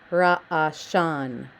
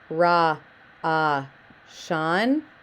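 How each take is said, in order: First: The syllables are joined smoothly into one word. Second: The syllables are said separately with pauses between. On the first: The speaker calls it right. "recite it as" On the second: The speaker calls it wrong. "instead of going ra, ah, shan"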